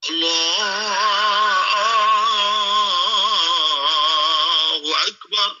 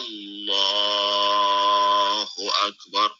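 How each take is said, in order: First: It is drawn out like a call to prayer. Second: It is said plainly at normal length.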